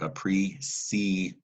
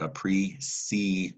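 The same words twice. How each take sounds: First: The middle consonant is a soft s sound. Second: The middle consonant is a soft s sound.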